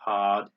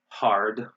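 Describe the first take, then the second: First: The R is dropped and the vowel lengthened. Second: The R sound is clearly pronounced. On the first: "They say hard. They just like prolong the A sound" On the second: "we say hard, we pronounce the R"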